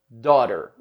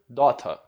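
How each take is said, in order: First: It is said in an American accent. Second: It is said in a British accent. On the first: "Minha pronúncia do [name] é mais voltada para o sotaque americano" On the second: "no inglês britânico, por exemplo, seria daughter"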